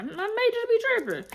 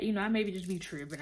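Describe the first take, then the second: First: Playful high-pitched self-mocking; mock high squeal. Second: Said in the usual way. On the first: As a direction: repeat it in a much higher, squeaky put-on voice. Friend admits she overreacted.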